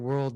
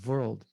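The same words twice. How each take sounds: First: The word begins with a W sound. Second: The word begins with a V sound. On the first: "They don't say world" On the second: "Indians pronounce W as V. ... they say world because they don't have W"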